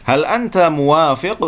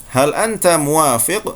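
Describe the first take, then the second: Both takes have the same delivery.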